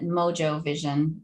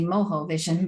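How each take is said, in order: First: Mojo is said with an English pronunciation. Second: Mojo is said with a Spanish pronunciation. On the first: This is how the company likely says its name. "I'm assuming they pronounce it" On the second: This is how a Cuban speaker would say the word.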